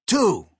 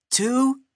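First: High, punched exclamation; excited, higher-pitched shout of a count; enthusiastic. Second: Very high, rising count; continue the countdown in a high voice; high cartoon sidekick counting; Chuck. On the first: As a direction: blurt it out with eager enthusiasm. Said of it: "Bomb said enthusiastically". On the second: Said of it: "Chuck continued". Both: A narrator's reading.

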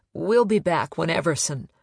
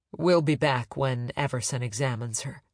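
First: Voice cracking. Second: Steady, firm and even. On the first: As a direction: voice breaks on the words. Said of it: "her voice cracked". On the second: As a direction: say it firmly, back in control. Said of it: "Kate said firmly". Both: A narrator's reading.

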